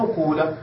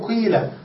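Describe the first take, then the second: First: The first vowel is a u sound. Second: The first vowel is a plain i sound. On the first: The speaker calls it wrong. "تترك الضمة كما هي ولكن لا تكسر ما قبل الآخر" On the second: The speaker calls it right. "تنقل الكسرة ثم تبدل الواو ياء فتقول قيل"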